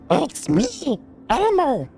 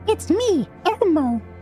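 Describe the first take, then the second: First: A rough, gruff, raspy voice. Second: A high, cute puppet-like voice. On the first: "a little bit gruffer, like he's had like a really rough life" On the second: "it's like Elmo"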